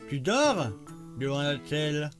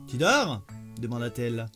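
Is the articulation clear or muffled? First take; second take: muffled; clear. First: The words sound muffled, spoken around an object. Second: The words sound clear, spoken with a free mouth. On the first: "Vous placez votre crayon" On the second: "vous enlevez le, le, le stylo"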